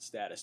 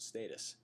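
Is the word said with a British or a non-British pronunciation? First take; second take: non-British; British. First: It is said with a non-British pronunciation. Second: It is said with a British pronunciation. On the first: "I'm not British, therefore I pronounce it status" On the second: "British pronounce it status"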